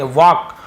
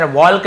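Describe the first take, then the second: First: वॉक with no L sound; silent L. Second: वॉल्क with the L sounded; wrong pronunciation. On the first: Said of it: "इसे वॉक पढ़ेंगे". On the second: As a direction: say वॉल्क, voicing the silent L. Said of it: "नहीं पढ़ेंगे". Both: Shown as a demonstration.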